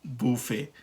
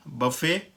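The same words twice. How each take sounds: First: बुफे as boo-FAY, softer; French pronunciation. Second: बफे as buh-FAY; American pronunciation. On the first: Teacher alternates two buffets, French pronunciation. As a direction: say बुफे with rounded oo. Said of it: "जो हम कहते हैं French version". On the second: Teacher alternates two buffets, American pronunciation. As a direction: keep बफे short and unrounded at the start. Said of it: "American pronunciation में ये है". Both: Shown as a demonstration.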